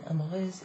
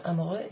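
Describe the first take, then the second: First: Amoureuse with a final z sound; feminine ending. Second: Amoureux with open eu, no z; masculine ending. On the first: Teacher naming the feminine form, amoureuse with z ending. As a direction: end amoureuse on a buzzed z. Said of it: "is the feminine". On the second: Teacher naming the masculine form, amoureux with open ending. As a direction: end amoureux on the vowel. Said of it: "is the masculine". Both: Shown as a demonstration.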